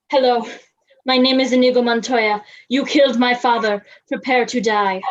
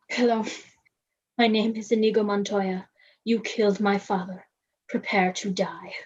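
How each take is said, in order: First: It is said loudly. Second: It is said quietly.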